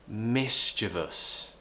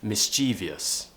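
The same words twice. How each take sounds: First: No extra 'ee' sound comes before the ending. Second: An extra 'ee' sound comes before the ending. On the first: The speaker calls it right. "we want to say mischievous" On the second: The speaker calls it wrong. "pronounce this word as mischievous. It's a really, really common mistake"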